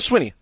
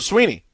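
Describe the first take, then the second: First: The first vowel is a short i sound. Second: The first vowel is a long ee sound. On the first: "I go Swinney" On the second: "People just go Sweeney"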